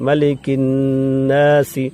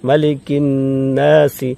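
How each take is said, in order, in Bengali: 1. শেষ s-এর পরে একটি ছোট i আছে। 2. শেষ s-এর পরে একটি ছোট i আছে।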